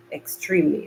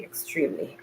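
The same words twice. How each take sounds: First: Said in the usual way. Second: Weary whispered moan from the heat; whispering. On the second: Real, not acted. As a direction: whisper it, drained and whining. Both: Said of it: "I sound like a whining".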